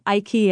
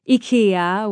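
First: IKEA is pronounced with an American pronunciation. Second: IKEA is pronounced with a Swedish pronunciation.

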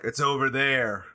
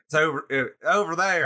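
First: It is said in a plain accent. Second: It is said in a Southern accent.

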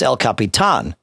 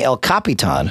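First: The stress is on the final syllable. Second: The stress is not on the final syllable. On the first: The speaker calls it right. "the accent on the A changes the accent" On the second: The speaker calls it wrong. "instead of it being El Capitan"

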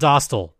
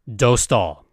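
First: The first syllable does not sound like 'dough'. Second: The first syllable sounds like 'dough'. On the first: The speaker calls it wrong. "not Dostal" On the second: The speaker calls it right. "It is Dostal, why we say dough stall"

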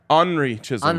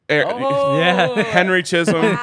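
First: The name is said in a Canadian French accent. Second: The name is said in a plain English accent.

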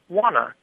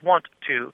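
First: The words blend into one reduced word. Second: Both words are said separately with a vowel between. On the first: "a little too far in that direction" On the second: "with the schwa between the two T's, it sounds sort of forced and robotic"

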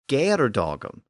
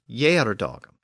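First: The word begins with a hard G sound. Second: The word begins with a Y sound. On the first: This is how the original poet said it. The speaker calls it right. "pronounced the word with a G sound" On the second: This is the later, traditional pronunciation. The speaker calls it wrong. "the later and more traditional"

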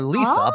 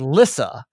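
First: The name does not sound like Alyssa shortened. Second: The name sounds like Alyssa minus its first sound. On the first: The speaker calls it wrong. "I call her Lisa" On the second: The speaker calls it right. "it's like Alyssa without the A"

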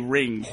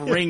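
First: The word is pronounced in an odd way. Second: The word is pronounced the standard way. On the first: The speaker calls it wrong. "You say two words strangely" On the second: The speaker calls it right. "Instead of ring"

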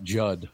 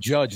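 First: The word ends with a clipped 'd' sound. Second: The word ends with a full 'j' sound. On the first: The speaker calls it wrong. "not jud" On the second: It means to criticise people. The speaker calls it right. "I said judge"

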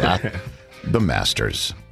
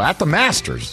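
First: It is said in a lowered, hushed voice. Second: It is said in a full, loud voice. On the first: The speaker calls it right. "You always have to lower your voice" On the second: The speaker calls it wrong. "You can't go"

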